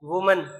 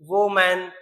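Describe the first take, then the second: First: The first syllable sounds like 'woo'. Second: The first syllable sounds like 'woh'. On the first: The speaker calls it right. "ऐसा नहीं पढ़ते, इसको बोलते हैं वुमन" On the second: The speaker calls it wrong. "इसको बहुत बच्चे पढ़ते हैं"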